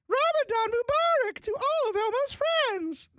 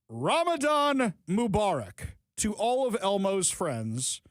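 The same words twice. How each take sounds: First: It is said in a put-on Elmo voice. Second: It is said in the speaker's normal voice.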